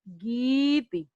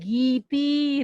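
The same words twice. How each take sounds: First: The stress falls on the first syllable. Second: The stress falls on the last syllable. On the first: The speaker calls it right. "गी पे ज्यादा जोर दिया और इस पे कम" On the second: The speaker calls it wrong. "इसको ऐसे नहीं बोलिएगा"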